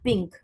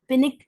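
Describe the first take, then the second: First: The n sound is hidden in the nose. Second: The n is pronounced clearly with an added vowel. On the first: The speaker calls it right. "हम उसको नून साकिन की आवाज को नाक में कहीं छुपाकर पढ़ते हैं" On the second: The speaker calls it wrong. "नहीं पढ़ते हैं"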